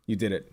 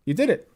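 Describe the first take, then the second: First: Said in the usual way. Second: Higher mock praise with a rising end; sarcastic congratulations. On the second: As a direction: fake cheer, pitched up.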